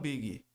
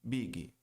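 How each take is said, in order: Both takes have the same delivery.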